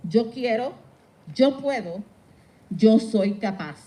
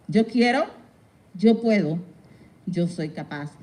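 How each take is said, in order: Both takes have the same delivery.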